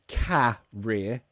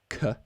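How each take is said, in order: First: The first vowel is a full vowel. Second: The first vowel is a reduced schwa. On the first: The speaker calls it wrong. "so it's not um career" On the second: The speaker calls it right. "It's a schwa at the beginning"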